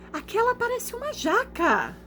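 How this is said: It is said with strong exclamatory intonation. "ponto de exclamação. Então eu tenho que ler como?"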